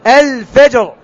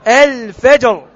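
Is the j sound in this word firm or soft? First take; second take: firm; firm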